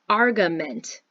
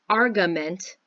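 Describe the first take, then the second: No difference in how they are said.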